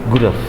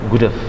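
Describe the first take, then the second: Both takes have the same delivery.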